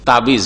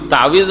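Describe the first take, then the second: First: The middle consonant is a b sound. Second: The middle consonant is a w sound. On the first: The speaker calls it wrong. "ওয়াওকে ওয়েকে বে করলো, আর আইনের টানকে অফ করে দিল" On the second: The speaker calls it right. "তাউইজ মানে আশ্রয়"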